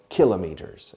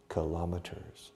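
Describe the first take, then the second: First: "kilometers" stressed on the first syllable, KILL-uh-mee-ters; English variant pronunciation. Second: Said in the usual way. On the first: Shown as a demonstration. Teacher giving the variant some English people use, English variant pronunciation. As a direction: say "kilometers" as kilo plus meters. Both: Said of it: "as some English people say".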